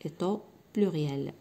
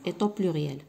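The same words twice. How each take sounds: First: Slow and low-key, split after "Est au"; slow dictation. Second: Said in the usual way. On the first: Shown as a demonstration. Teacher repeating the missing words for pupils to write, slow dictation. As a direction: dictate it softly, pausing before "pluriel".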